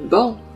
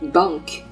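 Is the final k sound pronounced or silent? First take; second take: silent; pronounced. First: The word ends without a k sound. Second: The word ends with a k sound. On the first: The speaker calls it right. "字母C 在词末，在这里属于特殊的情况，是不发音的" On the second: The speaker calls it wrong. "千万不要读成bank"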